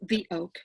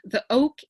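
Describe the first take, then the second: First: 'The' is said with a long 'thee' vowel. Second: 'The' is said with a short 'thuh' vowel. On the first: The speaker calls it right. "is pronounced as the when the next word is starts off with a vowel" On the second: The speaker calls it wrong. "the proper way of saying the oak"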